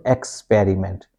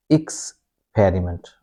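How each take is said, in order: First: "experiment" said as EKS-periment; wrong first vowel. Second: "experiment" begun with a short IKS, then a gap; slow IKS... periment for "experiment"; reduced first vowel. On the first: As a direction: open "experiment" on a full E sound. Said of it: "this is not experiment". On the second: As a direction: say "experiment" slowly, opening on IKS. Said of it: "we say ick". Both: Shown as a demonstration.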